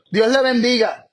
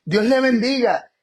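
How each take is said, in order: First: "Dios le bendiga" said with a sarcastic edge, a touch louder; a mock blessing to someone who won't open the door. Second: Said in the usual way. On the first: Shown as a demonstration. Preacher mocking a blessing to a closed door, sarcastic. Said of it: "Puede sonar hasta sarcástico". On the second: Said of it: "No es lo mismo decir".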